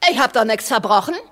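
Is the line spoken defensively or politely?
defensively. It is spoken defensively, as if to a policeman. The speaker is facing someone with authority to arrest her. The speaker calls it right. "als wenn er ein Polizist wäre"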